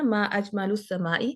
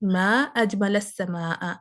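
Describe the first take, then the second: First: The vowel endings are those of a question. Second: The vowel endings are those of an exclamation. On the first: It asks which thing in the sky is most beautiful. The speaker calls it wrong. "आसमान में सबसे ज्यादा खूबसूरत क्या है" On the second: It exclaims how beautiful the sky is. The speaker calls it right. "आपको कहना चाहिए था"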